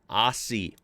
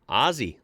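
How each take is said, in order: First: The middle consonant is a hissing s sound. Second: The middle consonant is a buzzing z sound. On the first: The speaker calls it wrong. "has never, ever been pronounced as Aussie" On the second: The speaker calls it right. "like Ozzy Osbourne, exactly like that"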